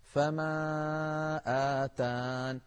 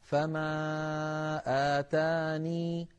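First: آتان stopped on the n, ya dropped; slow recitation cutting آتان at the nun; pausing without the ya. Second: آتاني held on a long final -ni; slow recitation ending آتاني on the ya; pausing with the ya. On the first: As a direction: chant فما آتان, halting on the nun. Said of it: "بدون ياء". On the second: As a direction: chant فما آتاني slowly, keeping the ya. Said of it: "نطقتها أمامكم الآن". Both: Shown as a demonstration.

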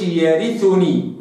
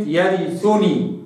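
First: يرثني with full ر kasra and ث damma; correct version. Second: يرثني with the vowels cut short; wrong version. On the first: Teacher showing the right reading. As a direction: give يرثني full vowels. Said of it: "كسر الراء جيدًا". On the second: Teacher showing how not to read it. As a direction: rush the ر and ث in يرثني. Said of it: "ما قلش". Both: Shown as a demonstration.

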